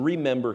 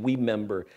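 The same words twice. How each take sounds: First: Said in the usual way. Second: We member with W for the R; says w for r. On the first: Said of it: "he can't say his R's". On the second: Retold or imitated. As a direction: remember said as we member, R turned W. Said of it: "His R's come out W's".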